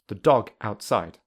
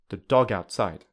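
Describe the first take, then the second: First: The words are said separately without linking. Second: The words are linked smoothly together. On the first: "firstly without linking" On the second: "secondly with linking"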